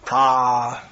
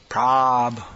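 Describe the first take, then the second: First: The vowel is long. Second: The vowel is short. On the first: The speaker calls it wrong. "not ... long A" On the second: The speaker calls it right. "That's a short A"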